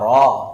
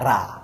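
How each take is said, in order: First: The letter is said full and heavy. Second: The letter is said thin and light.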